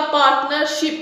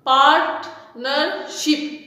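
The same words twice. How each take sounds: First: Said in the usual way. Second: पार्टनरशिप very slow, part-ner-ship with pauses; split into syllables. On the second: Shown as a demonstration. Teacher counting divisions in पार्टनरशिप, slow syllable by syllable. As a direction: chop पार्टनरशिप into three separate parts. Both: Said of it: "three syllable division में".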